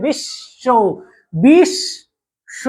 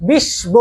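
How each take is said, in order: First: বিশ্ব said "bish-sho", long hissed sh; silent b, doubled sh. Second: বিশ্ব mispronounced "bish-bo"; wrong b sound. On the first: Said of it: "আমরা বলি বিশ্ব". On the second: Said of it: "বিশ্ব বলি না". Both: Shown as a demonstration.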